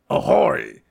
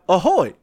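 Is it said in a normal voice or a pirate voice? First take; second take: pirate; normal. First: It is said in a pirate voice. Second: It is said in a normal voice.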